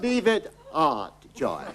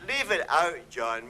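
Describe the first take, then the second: First: The vowel in out sounds like art. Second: The vowel in out is a plain ow sound.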